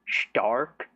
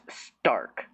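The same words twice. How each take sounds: First: It begins with a soft Sh sound. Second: It begins with a crisp, hard S sound. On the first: The name is said the way the anime says it. "it sounds like they're saying like Shark, but with a T" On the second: The name is said like the ordinary English word. "I thought it was pronounced Stark, like there's a stark contrast"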